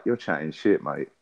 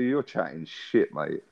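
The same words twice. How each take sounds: First: Said in the usual way. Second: Slow and a bit quieter, drawn out; slower, softer retort. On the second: Retold or imitated. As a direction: drag out "chatting shit, mate" slowly. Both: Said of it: "That's exactly what I said".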